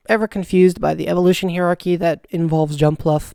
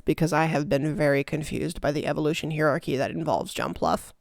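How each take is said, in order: First: Said in the usual way. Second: Softer, lower mock-confused repeat; quieter repeat. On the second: Real, not acted. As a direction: drop it low and deadpan. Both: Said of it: "repeated line".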